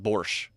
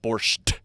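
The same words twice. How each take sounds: First: The word ends without a final t sound. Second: The word ends with an added t sound. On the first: This is how Russians say it. The speaker calls it right. "the Russians just call it borscht" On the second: This is how English speakers say it. The speaker calls it wrong. "not borscht"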